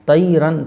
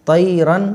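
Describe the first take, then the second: No difference in how they are said.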